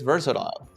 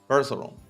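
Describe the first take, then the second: First: It is said with a British accent. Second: It is said with an American accent.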